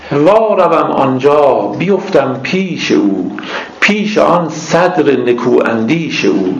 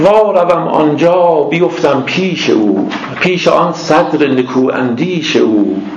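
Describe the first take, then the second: Both takes have the same delivery.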